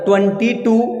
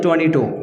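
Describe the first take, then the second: First: Every sound is said fully and plainly. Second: It is clipped, in an English-style accent. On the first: "पूरे बोलते हैं" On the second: "हमने ऐसे बताया ... अंग्रेज लोग ऐसे बोलते हैं, आधे चबा के बोलते हैं"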